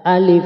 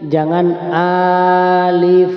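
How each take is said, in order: First: The vowel in alif is kept short. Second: The vowel in alif is drawn out long. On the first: The speaker calls it right. "Alif dibaca pendek ya. ... Yang betul adalah alif" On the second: The speaker calls it wrong. "jangan alif, salah"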